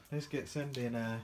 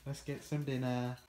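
No difference in how they are said.

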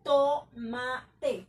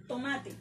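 First: "Tomate" loud, split into to-ma-te; syllable by syllable. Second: Said in the usual way. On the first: Shown as a demonstration. Teacher breaking down an example word for students, syllable by syllable. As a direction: beat out each syllable of "Tomate" separately. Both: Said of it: "vamos a mirar la palabra tomate".

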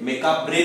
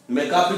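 First: मेकाब्रे, r and e both sounded; sounded final re. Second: मेकाब with the r left unsaid; silent final re. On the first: Teacher showing the other variant, मेकाब्रे ending in bre. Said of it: "मेकाब्रे भी बोलते हैं इसको". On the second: Teacher showing an accepted variant, मेकाब ending on b. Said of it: "मेकाब भी बोलते हैं". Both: Shown as a demonstration.

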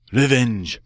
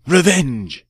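First: A first cry of revenge, held back. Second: Louder, much higher second cry of revenge. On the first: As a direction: start the vow firmly. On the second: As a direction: let the second one explode. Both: Acted. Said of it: "Poisson cried".

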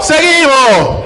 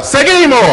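First: ¿Seguimos? gritado y alargado, muy lento; drawn-out shout. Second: Pregunta gritada, aguda; grítale al público ¿Seguimos?; crowd shout. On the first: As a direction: estira ¿Seguimos? a todo pulmón. (el presentador alarga la pregunta al público, gritando) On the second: (el presentador le pregunta al público, gritando) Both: Real, not acted. Host shouting question to crowd.

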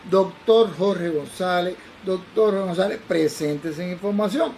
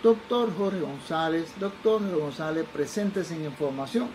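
First: Slow, insistent airport call, firmly projected; more imperative paging announcement. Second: Slow, drawn-out public announcement; airport paging announcement. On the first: Airport paging the doctor a second time, imperative announcement. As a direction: page the doctor as an order, drawn out. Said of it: "era un poco más imperativo". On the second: Airport paging a doctor on arrival, measured announcement. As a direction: page a passenger, syllables stretched out. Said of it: "dicen por el lado del aeropuerto". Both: Retold or imitated.

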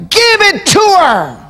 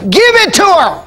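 First: High shouted preaching cry, slowed; shouted refrain. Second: High, ringing command from the judge; judge's verdict. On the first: Acted. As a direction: cry it out to the congregation, drawn out and slow. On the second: Retold or imitated. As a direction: proclaim it like a judge giving in. Judge voiced in retelling.

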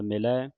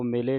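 First: ਮਿਲੈ ending in an open ai; ਮਿਲੈ with a wide final vowel; correct final ai. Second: ਮਿਲੇ ending in a close e; ਮਿਲੇ with a narrow final vowel; mistaken final e. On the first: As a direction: say ਮਿਲੈ as mi-lai, like eh. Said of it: "ਮਿਲੈ ਦਲਾਵਾਂ ਦੇ ਨਾਲ". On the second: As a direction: say ਮਿਲੇ as mi-lay. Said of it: "ਮਿਲੇ ਨਹੀਂ ਪੜ੍ਹ ਦੇਣਾ". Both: Shown as a demonstration.

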